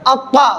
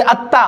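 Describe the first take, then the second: First: Heavy, full-mouthed emphatic consonant in अक्का; मोटी आवाज. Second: अत्ता with a light, easy, thin T; आराम से. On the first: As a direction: say अक्का thick and rounded, towards "aw". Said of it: "मोटा करके पढ़ेंगे". (अक्का को मोटा, भरी आवाज़ में) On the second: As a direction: say अत्ता gently, without rounding. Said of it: "आराम से पढ़ेंगे". (अत्ता को आराम से, बारीक) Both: Shown as a demonstration.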